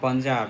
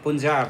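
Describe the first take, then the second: First: Punjab is said with a South Asian pronunciation. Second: Punjab is said with an American-style pronunciation. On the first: The speaker calls it right. "instead of saying Punjab" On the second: The speaker calls it wrong. "A lot of my American friends they mistake, you know, saying Punjab"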